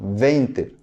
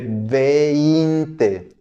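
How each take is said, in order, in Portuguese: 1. A palavra é dita depressa. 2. A palavra é dita devagar e com cuidado. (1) "Só que falamos mais rápido" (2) "é vinte"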